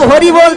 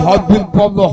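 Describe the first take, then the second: First: The middle consonant is a clear r sound. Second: The r is replaced by a b sound. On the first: The speaker calls it right. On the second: The speaker calls it wrong.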